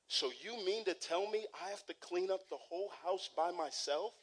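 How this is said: It sounds like a sincere, genuine question.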